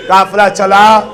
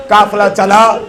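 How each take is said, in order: Both takes have the same delivery.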